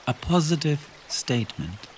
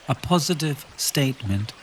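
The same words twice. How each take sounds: The two takes are said the same way.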